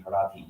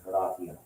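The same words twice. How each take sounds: First: Horati with the final I said as a long E; Horati, every vowel sounded, hor-AH-tee; Latin pronunciation. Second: Horatia said the English way, ending in -sha; English pronunciation. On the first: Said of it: "Like the I sound". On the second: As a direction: Horatia anglicized, no separate final vowel. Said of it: "like, English accent". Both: Shown as a demonstration.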